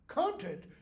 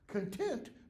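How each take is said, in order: First: The stress is on the first syllable. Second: The stress is on the second syllable. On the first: The stuff inside something. "Content means the stuff in something" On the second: Being satisfied. "Content means to be satisfied"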